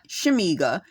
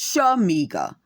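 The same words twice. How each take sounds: First: The first syllable sounds like 'she'. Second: The first syllable sounds like 'sha'. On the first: The speaker calls it wrong. "It's not Shamiga" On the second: The speaker calls it right. "it's Shamiga"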